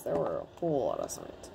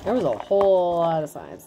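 First: Much lower and softer, muttered; low quiet self-correction. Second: Said in the usual way. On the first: Real, not acted. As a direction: mutter the fix under your breath. Corrects own grammar, repeating line.

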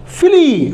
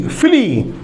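First: फिली pitched higher, sounded out clearly; teaching demo. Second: Said in the usual way. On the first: Shown as a demonstration. Teacher modelling the word फिली, pitched higher. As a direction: lift फिली up as you model it. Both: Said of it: "एफ का फी".

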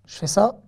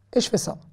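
First: Said in the usual way. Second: "et" diberi tekanan, pelan; stress on et. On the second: Shown as a demonstration. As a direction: tekan kata "et" untuk langkah kedua.

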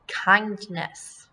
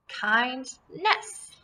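First: Said in the usual way. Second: "Kindness" broken in two, KIND, pause, NESS; split into syllables. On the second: Shown as a demonstration. Teacher breaks up the word for pupils, "Kindness" in separate syllables. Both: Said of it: "this is going to be one syllable".

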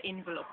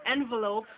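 First: "envelope" said IN-vi-lope; short i vowels in "envelope"; Jamaican pronunciation. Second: Said in the usual way. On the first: Shown as a demonstration. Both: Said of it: "we would say envelope".

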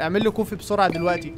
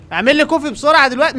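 First: Said in the usual way. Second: Impatient demand. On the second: Real, not acted. Demanding coffee from machine.

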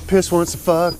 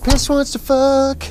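First: Said in the usual way. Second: "Piss wants to fuck" said much higher and slow; silly high voice. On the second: Pretend. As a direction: drawl it in a goofy high voice.

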